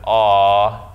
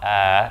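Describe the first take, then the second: First: The vowel is deep and heavy. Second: The vowel is thin and light. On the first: The speaker calls it right. "the vowel that comes after that lam is ah" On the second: The speaker calls it wrong. "and not ah"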